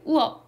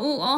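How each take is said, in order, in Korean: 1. 앞 모음을 짧게 줄여서, 하나로 이어지게 발음해요. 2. 두 모음을 다 길게, 따로따로 발음해요. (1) "얘를 짧게 발음하면 돼요" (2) "우어 하면 안 되고"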